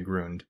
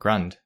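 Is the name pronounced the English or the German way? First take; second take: German; English. First: The name is pronounced the German way. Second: The name is pronounced the English way. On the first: This is how the name was said originally. "In the original German, it was probably closer to Grund" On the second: This is how the name is said now. "But yeah, Grund"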